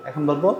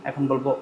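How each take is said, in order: No difference in how they are said.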